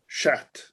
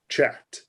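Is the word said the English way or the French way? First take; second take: French; English. First: It is said like French, in an American accent. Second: It is said like the English word chat. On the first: The speaker calls it right. "will sound sort of French, but an American speaking French" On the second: The speaker calls it wrong. "not chat"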